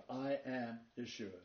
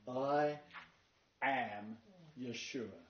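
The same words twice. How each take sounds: First: Said in the usual way. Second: "I", pause, "am", pause, "Yeshua", each set apart; pauses between words. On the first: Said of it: "The two-word pattern". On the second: Shown as a demonstration. Preacher showing the congregation the words, pausing between them. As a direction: space out "I" "am" "Yeshua" with pauses to stress each word. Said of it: "Notice the first three words".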